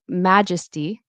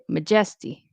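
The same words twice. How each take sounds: First: The stress falls on the expected syllable. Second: The stress falls on a different syllable. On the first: The speaker calls it right. "instead of saying majesty" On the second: The speaker calls it wrong. "the stress is off. Stress is in a different place"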